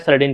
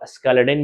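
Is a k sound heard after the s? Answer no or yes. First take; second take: no; yes. First: The name starts with s and no k sound. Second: The name starts with s followed by k. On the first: "मैं सेलेडिन पढ़ता हूं" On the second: "आप इसको स्केलेडिन भी पढ़ सकते हैं, हालांकि यह साइलेंट होता है"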